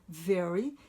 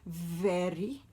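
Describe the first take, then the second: First: The word has a standard, non-Indian pronunciation. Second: The word has an Indian-style pronunciation. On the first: The speaker calls it right. "e se diz very" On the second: The speaker calls it wrong. "não se diz very ... o very é uma pronúncia comum, por exemplo, na Índia"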